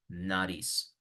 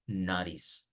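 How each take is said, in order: The two takes are said the same way.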